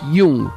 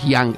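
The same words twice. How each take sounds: First: The name is pronounced the German way. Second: The name is pronounced the English way. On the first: The speaker calls it right. "es Jung" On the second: The speaker calls it wrong. "no es inglés, no es Jung"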